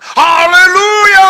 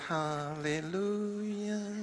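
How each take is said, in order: First: The word is said loudly and forcefully. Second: The word is said softly and gently. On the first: This is how Batak people sound. "Orang Batak" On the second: This is how Javanese people sound. "Orang Jawa kalau nyanyi kan lembut"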